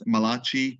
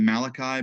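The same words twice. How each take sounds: First: The name has an Italian-sounding ending. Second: The name has a plain English-sounding ending. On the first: The speaker calls it wrong. "they say that it's Malachi. They always said it's the uh, the only Italian prophet" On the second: The speaker calls it right. "it's actually Malachi"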